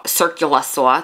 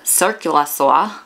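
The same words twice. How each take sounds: First: Circular saw with a New York accent, the r dropped; a New York accent slipping out on circular saw. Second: Circular saw said slowly with both r sounds clear, no New York accent; careful circular saw. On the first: New Yorker caught saying circular saw with a New York accent. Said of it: "there's my New York". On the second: Correcting her New York accent, saying circular saw slowly and carefully. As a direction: carefully spell out circular saw in general American. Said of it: "say that ten times fast". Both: Shown as a demonstration.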